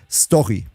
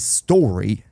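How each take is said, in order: First: The word is said with a German pronunciation. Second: The word is said with an English pronunciation. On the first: The word sits inside a German sentence. "when I have a German sentence that includes the word story, I say story" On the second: The word sits inside an English sentence. "And when I speak English, of course I say story"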